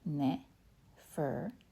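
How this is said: The name is said nervously.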